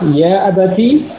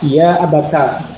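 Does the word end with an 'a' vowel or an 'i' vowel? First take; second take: i; a. First: The word ends with a short 'i' vowel. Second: The word ends with a short 'a' vowel. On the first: This is the reading of most of the seven readers. "membaca dengan kasrah" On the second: This is the reading of one particular reader. "membaca dengan fathah"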